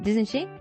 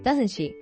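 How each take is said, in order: First: The voice rises at the end. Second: The voice falls at the end. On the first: The speaker is unsure and wants an answer. "Display rising intonation" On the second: The speaker only seeks agreement. "그냥 동의를 원하는 약간 rhetorical question"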